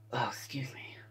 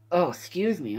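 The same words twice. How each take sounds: First: Whispered apology. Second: Said in the usual way. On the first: Real, not acted. After a burp.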